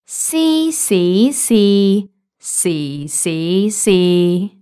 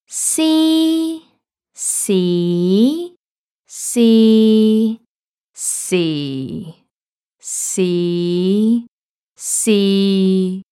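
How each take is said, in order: First: The syllables are said at a quicker pace. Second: The syllables are said at a slower pace. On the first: "I'll say it quicker" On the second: "I'll say the six tones in a row so you can hear the difference"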